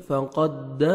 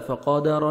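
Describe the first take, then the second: First: Slow "فقد" holding the doubled dal; firm doubled dal. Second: "فقد را" with stretched qa and single loose dal; undoubled dal mistake. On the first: Teacher showing the correct way, "فقد" with firm dal. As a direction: press and hold the dal of "فقد". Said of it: "آپ نے سختی سے ملانا ہے". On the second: Teacher showing the mistake, "فقد را" with undoubled dal. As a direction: wrongly lengthen "ق" and skip the doubling in "فقد را". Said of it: "نہیں پڑھنا ہے". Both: Shown as a demonstration.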